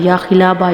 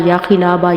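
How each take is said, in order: No difference in how they are said.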